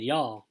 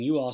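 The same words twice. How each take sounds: First: "y'all" run together as one syllable; one-word Southern "y'all". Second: Said in the usual way. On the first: Shown as a demonstration. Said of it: "she said "y'all". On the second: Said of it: "Instead of saying".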